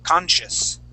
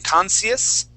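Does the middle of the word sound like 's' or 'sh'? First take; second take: sh; s. First: The middle has a clear sh sound, not s. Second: The middle has a plain s sound, not sh. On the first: The speaker calls it right. "that's going to make an S H sound. We say conscious" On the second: The speaker calls it wrong. "instead of saying conscious"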